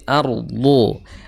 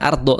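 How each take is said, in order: First: The r is pronounced heavy and full. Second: The r is pronounced light and thin. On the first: The speaker calls it right. "tapi ardo" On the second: The speaker calls it wrong.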